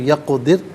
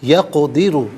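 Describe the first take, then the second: First: The word ends on a vowelless r sound. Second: The word ends with a short u vowel. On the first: The reader stops at this word. "यहाँ रुकेंगे तो यक़दिर पढ़ेंगे" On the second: The reading continues without stopping.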